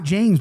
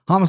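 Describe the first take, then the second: First: The name begins with a J sound. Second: The name begins with an H sound. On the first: The speaker calls it wrong. "It's not James, by the way" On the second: The speaker calls it right. "He pronounces it Hamas"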